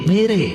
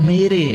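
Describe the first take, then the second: Both takes have the same delivery.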